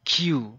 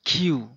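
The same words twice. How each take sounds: First: The k has a puff of air after it. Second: The same.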